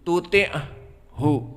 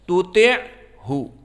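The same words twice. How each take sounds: First: Breath escapes audibly on the ain sound. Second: The ain sound is voiced with no escaping breath. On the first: The speaker calls it wrong. "untuk ain dikeluarkan tuti'hu, tuti'hu, itu salah" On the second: The speaker calls it right. "Maka dia jahar"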